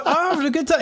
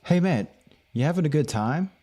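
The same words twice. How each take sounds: First: Very high, squeaky-pitched insistence; mock protest. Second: Lightly acted, slightly higher question; retold friendly check-in. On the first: Telling someone he really is enjoying himself, high mock protest. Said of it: "It just doesn't look". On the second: Stranger checking on him at a gathering, lightly acted friendly question. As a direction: imitate someone casually checking in. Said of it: "They were like".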